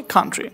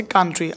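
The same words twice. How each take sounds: First: কান্ট্রি opening on breathy "kh"; corrected pronunciation. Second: কান্ট্রি with unaspirated k; ordinary pronunciation. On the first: Teacher giving the right form, কান্ট্রি with aspirated kh. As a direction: say কান্ট্রি as "khaan-tri". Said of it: "এই উচ্চারণ হবে". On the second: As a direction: say কান্ট্রি as plain "kaan-tri". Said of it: "উচ্চারণটা এমন হবে না". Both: Shown as a demonstration.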